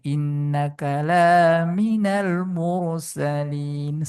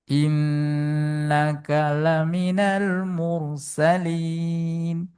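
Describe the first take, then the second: First: The vowel after the l is lengthened. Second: The vowel after the l is short. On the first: You are not one of the messengers. The speaker calls it wrong. "Sepertinya indah. ... Tapi artinya berbeda" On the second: You are truly one of the messengers. The speaker calls it right. "lanya pendek"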